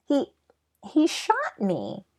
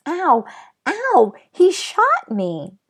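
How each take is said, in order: First: Slow, stunned and stammering; shocked. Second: High, loud cries of pain, slowing on the last words; screaming in pain. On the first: Patrick to Omri, still stunned from being shot, shocked. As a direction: say it like you can't believe it happened. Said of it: "in a shocked voice". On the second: Patrick hit by the tiny cowboy's bullet, screaming in pain. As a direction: yelp it out like he's just been hit. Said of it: "Patrick screamed". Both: Acted.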